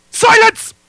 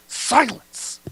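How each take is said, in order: First: Very loud high bellow; booming command. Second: Milder, higher stern command; softer command. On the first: Actor bellowing a command, far too loud. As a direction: roar it to shut the room. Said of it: "maybe not that loud". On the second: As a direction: order silence with less force. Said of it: "that's terrible". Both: Acted.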